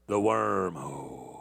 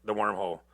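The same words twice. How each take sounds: First: Low ominous. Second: Said in the usual way. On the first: Real, not acted. Mock ominous about the YouTube wormhole, low and slow. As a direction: lower and slower, drawn out.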